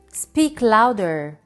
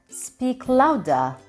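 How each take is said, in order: First: It is spoken in a non-British accent. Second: It is spoken in a British accent.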